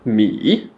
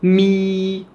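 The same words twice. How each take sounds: First: The pitch falls low, then rises again. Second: The pitch stays high and level. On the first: "une intonation qui descend vers le grave et on remonte vers l'aigu" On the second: "L'important c'est de tenir la note"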